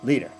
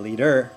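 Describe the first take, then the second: First: American-style, with the stress on the first syllable. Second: Australian-style, with the stress on the second syllable.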